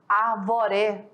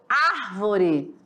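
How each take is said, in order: First: The stress is on the second syllable. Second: The stress is on the first syllable. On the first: The speaker calls it wrong. "e não na segunda" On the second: The speaker calls it right. "É na primeira sílaba"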